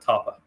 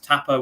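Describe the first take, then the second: First: The first vowel is said long. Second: The first vowel is said short. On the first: "would be how I would pronounce that" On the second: "with a short A"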